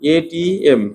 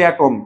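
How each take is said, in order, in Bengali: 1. এটি তিনটি আলাদা অক্ষরের নাম হিসেবে উচ্চারিত হয়। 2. এটি একটি একক শব্দ হিসেবে উচ্চারিত হয়, atom। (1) "এটিএমই বলা উচিত" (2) "এটা অ্যাটম বলা উচিত না"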